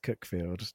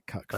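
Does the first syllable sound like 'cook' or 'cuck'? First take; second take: cook; cuck. First: The first syllable rhymes with 'book'. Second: The first syllable rhymes with 'duck'. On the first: The speaker calls it right. "It's definitely pronounced Cookfield" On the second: The speaker calls it wrong. "No one pronounces it Cuckfield"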